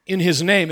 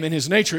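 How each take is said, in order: First: Preacher's emphasis on "name"; stress on name. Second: Preacher's emphasis on "nature"; stress on nature. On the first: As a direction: lean on "name" in "in his name", raised and firm. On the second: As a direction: lean on "nature" in "in his nature", rising at the end. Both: Shown as a demonstration. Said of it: "put the emphasis on".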